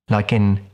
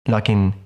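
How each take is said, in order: The two takes are said the same way.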